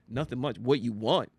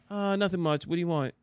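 First: It sounds curt and hostile. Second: It sounds relaxed and casual.

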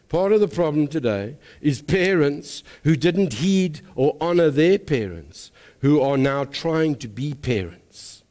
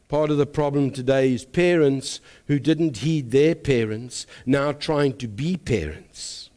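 First: It is said slowly. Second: It is said at normal speed.

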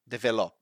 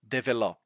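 The two takes are said the same way.

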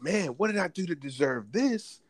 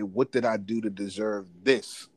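First: It sounds grateful and pleased. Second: It sounds dismayed and unhappy.

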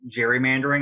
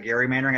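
First: It begins with a soft J sound. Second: It begins with a hard G sound. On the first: This is how the word came to be said. "how it became gerrymandering" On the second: This matches how the original name is said. "instead of gerrymandering"

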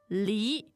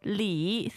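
First: The pitch rises steadily from mid to high. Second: The pitch dips low and then rises. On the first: It means pear. "second tone, pear" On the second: It means plum, the surname. "third tone, plum"

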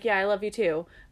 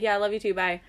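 First: It is said sincerely and warmly. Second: It is said casually and offhandedly.

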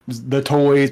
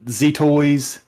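First: It is said in a plain English accent. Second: It is said in a mock French accent. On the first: "you know, the toys" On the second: "they talk like, you know, Z-toy"

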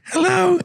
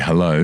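First: It is said in a high, unbroken voice. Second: It is said in a deep voice.

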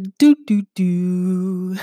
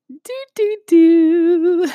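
First: It is said in a lower voice. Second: It is said in a higher voice.

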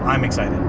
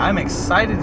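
First: It is said in a flat, monotone voice. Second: It is said with lively, enthusiastic energy. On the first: The feeling is only a little excitement. "Just super monotone" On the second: The feeling is strong and intense. "oh heck yeah"

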